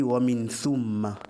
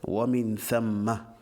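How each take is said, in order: First: "thumma" slowly, with a u after th; mistaken vowel. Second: "thamma" drawn out, with a short a after th; fatha on tha. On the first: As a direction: say "thumma" with an oo sound in the first syllable. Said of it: "Or, c'est «Wa min thamma»". (« thumma » avec un son ou après le th) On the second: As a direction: slowly pronounce "thamma" as THAM-ma. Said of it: "avec la fatha". (« thamma » bien posé, avec la fatha, un a) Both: Shown as a demonstration.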